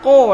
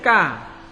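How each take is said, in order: First: The k sound is deep and heavy. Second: The k sound is forward and light. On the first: The speaker calls it right. "Harus dibaca ko" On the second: The speaker calls it wrong. "tidak boleh ka. Kalau ka berarti dia huruf kaf"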